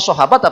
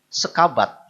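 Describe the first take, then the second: First: The middle consonant is an h sound. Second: The middle consonant is a k sound.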